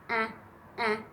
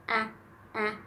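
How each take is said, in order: The two takes are said the same way.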